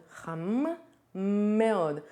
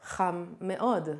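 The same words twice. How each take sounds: First: חם then a pause, then מאוד on its own; separated words. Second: חם מאוד run together smoothly as one unit; linked together. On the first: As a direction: split חם and מאוד apart with a gap. (חם and מאוד said as two separate words) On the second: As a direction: glide חם straight into מאוד. (חם מאוד said as one connected phrase) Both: Shown as a demonstration. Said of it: "I kinda connect those things together".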